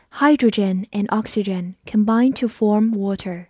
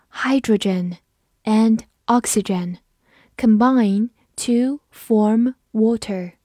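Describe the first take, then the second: First: Said in the usual way. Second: Slow phrases with long pauses; slow read-through. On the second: Shown as a demonstration. Teacher models a chemistry sentence for learners, slow read-through. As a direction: read it slowly, piece by piece. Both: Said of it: "这个句子我们慢读一遍".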